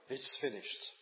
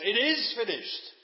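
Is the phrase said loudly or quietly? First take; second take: quietly; loudly. First: The phrase is said quietly and with resignation. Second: The phrase is cried out loudly and triumphantly. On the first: Everything is over in defeat. The speaker calls it wrong. "he wasn't saying, "Oh, it's all over, it's finished."" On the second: The work has been completed successfully. The speaker calls it right. "He was crying out with a loud voice"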